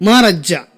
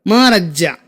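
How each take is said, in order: Both takes have the same delivery.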